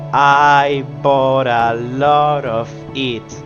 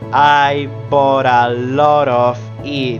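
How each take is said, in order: First: The words link and the Ts become flaps. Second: The same.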